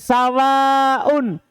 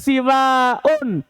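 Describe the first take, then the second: First: Short a vowel first, long ending with glottal. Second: Short i vowel first, long ending with glottal. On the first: "sawaun seperti samain" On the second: "siwaun seperti binaun"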